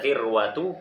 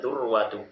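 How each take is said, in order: First: The first vowel is an 'i' sound. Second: The first vowel is a 'u' sound. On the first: "mengkasrahkan dal"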